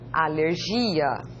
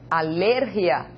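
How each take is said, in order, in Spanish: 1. El acento cae donde lo pone el portugués. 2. El acento cae donde lo pone el español. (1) "Em português se lê alergia" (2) "Em espanhol se lê alergia"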